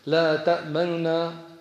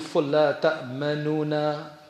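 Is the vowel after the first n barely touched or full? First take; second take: barely touched; full. First: The vowel after the first n is barely sounded. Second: The vowel after the first n is fully sounded. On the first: The speaker calls it right. "one third of a dhamma" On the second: The speaker calls it wrong. "That would be full"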